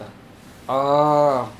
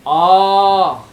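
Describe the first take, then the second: First: The vowel is said on a low pitch. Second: The vowel is said on a high pitch. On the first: "अनुदात नीचे के" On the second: "उच्चर उदात, जब उच्च आ, ये हो गया उदात"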